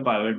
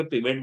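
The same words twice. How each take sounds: First: पाइवट with an "eye" vowel, "PIE-vet"; first syllable of पाइवट as "pie"; pronunciation variant. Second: पिवट with a short i, "PIV-it"; first syllable of पिवट as "pi" in "pit"; pronunciation variant. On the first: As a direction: say पाइवट with a gliding long i. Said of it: "कहीं पे पाइवट बोला जा रहा है". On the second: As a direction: say पिवट with no "eye" sound. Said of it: "कहीं पे पिवट बोला जा रहा है". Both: Shown as a demonstration.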